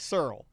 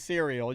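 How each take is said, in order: First: The word is said in a Southern way. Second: The word is said in a standard way.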